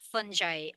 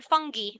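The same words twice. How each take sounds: First: "fungi" said FUN-jai, with a j sound; soft-g fungi. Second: "fungi" said FUNG-gee, with a hard g. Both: Shown as a demonstration. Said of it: "whichever way you want to pronounce it".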